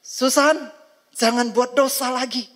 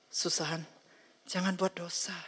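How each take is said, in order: First: High, loud stern rebuke; louder warning. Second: Soft, quiet divine warning; gentle warning. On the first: God sternly warns Susan a second time, loud and high. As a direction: raise the voice and scold her. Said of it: "Tuhan akan berbicara lebih keras". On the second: God gently warns Susan against sin, softly. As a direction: softly caution the child not to sin. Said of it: "Dengan cara halus". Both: Acted.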